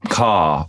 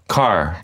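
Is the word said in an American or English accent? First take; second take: English; American. First: It is said in an English accent. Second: It is said in an American accent.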